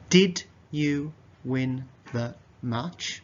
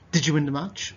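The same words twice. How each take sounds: First: The words are said carefully and separately. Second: The words are faster with D and Y blended.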